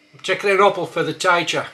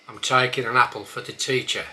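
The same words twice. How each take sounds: First: A bit louder, taking said taikin, apple as opple, teacher as taicher; broad Black Country sentence; Black Country accent, broad vowels. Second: Said in the usual way. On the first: Shown as a demonstration. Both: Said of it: "start with a few words".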